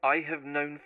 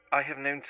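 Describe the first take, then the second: No difference in how they are said.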